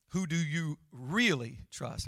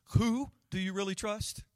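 First: "really" dwelt on with a falling tune; stress on REALLY. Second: "Who" lifted high and leaned on, the rest falling away; stress on WHO. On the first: Preacher choosing to stress "really" for the congregation. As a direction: press down on "really" and let it fall. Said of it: "I wanna focus on that one". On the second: Preacher showing the congregation how to stress "Who". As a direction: hit the word "Who" hard and high. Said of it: "so many different ways you could emphasize that sentence". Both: Shown as a demonstration.

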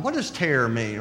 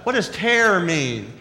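First: Said in the usual way. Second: Each word spelled out slowly for the speaker; talking to a smart speaker, slow and deliberate; slow, careful command to Alexa. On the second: Retold or imitated. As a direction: speak slowly and clearly so the device understands.

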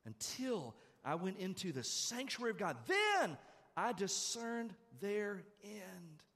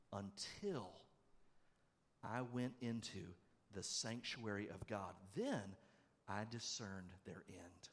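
First: Very slow, drawn-out proclamation of the verse; slow emphatic reading. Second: Softer, slow, solemn reading of the verse; quiet scripture reading. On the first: Preacher repeating the verse to the church, slow and emphatic. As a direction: stretch every word and declare it. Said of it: "That's what he says here". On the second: Preacher reading the Psalm to the congregation, quiet and slow. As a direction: read it hushed, letting each word land. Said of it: "listen to this in verse seventeen". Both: Shown as a demonstration.

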